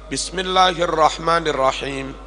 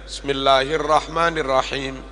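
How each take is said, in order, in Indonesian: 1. Bunyi b di awal diucapkan dengan jelas. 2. Bunyi b di awal samar dan kurang terdengar.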